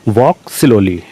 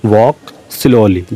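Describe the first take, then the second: First: Said in the usual way. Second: Each word drawn out very slowly for learners; very slow dictation. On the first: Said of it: "teacher says phrase once normally". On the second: Shown as a demonstration. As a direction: dictate it slowly so students can follow. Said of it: "teacher repeats phrase for learners". (बहुत धीरे, शब्द-शब्द खींचकर)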